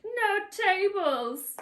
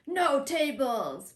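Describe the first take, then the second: First: Much higher, very slow hammed-up yell; mock shout. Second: Slow mock yell, a little higher and louder; mock shout. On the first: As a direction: stretch out a cartoonish no tables. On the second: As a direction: drag out a hammed-up no tables. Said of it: "Roman goes to get something".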